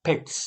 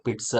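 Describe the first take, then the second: First: ફિટ્સ short, ending in bare "ts"; hissed final S. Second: પિટ્સ said as "pit-sa"; wrong vowel ending. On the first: Teacher modelling for pupils, ફિટ્સ ending in a hiss. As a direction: only air at the end of ફિટ્સ. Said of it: "ખાલી હવા પાછળ સ". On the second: Teacher correcting pupils, પિટ્સ with an added "sa". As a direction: add a voiced vowel after પિટ્સ. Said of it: "નહીં". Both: Shown as a demonstration.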